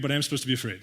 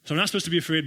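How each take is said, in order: First: "am" leaned on, set against "not"; stress on am. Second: "not" leaned on, set against "am"; stress on not. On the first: Preacher spelling out the paradox, stress on "am". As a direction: hit "am" hard. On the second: Preacher spelling out the paradox, stress on "not". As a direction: hit "not" hard. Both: Shown as a demonstration. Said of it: "wait, time out".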